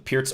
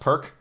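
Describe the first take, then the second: First: The word ends with a ts sound. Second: The word ends with a k sound. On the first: The speaker calls it right. "like it's pronounced P E R T S" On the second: The speaker calls it wrong. "Commonly mispronounced perk"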